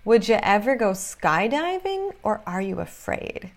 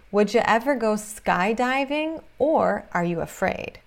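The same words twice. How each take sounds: The two takes are said the same way.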